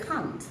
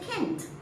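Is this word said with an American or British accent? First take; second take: British; American. First: It is said with a British accent. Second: It is said with an American accent. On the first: "British will say can't" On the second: "The Americans will say can't"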